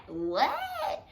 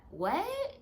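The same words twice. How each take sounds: First: Higher, louder falling what; high, punchy falling repeat; exasperated what. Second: Rising, puzzled what; bewildered rising question; confused what. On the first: Asking again, still not hearing. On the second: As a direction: ask it like you missed every word. Not hearing the mumbling man. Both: Retold or imitated.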